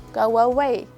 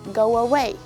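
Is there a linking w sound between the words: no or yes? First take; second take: yes; yes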